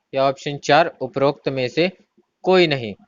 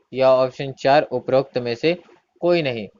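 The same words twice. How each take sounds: The two takes are said the same way.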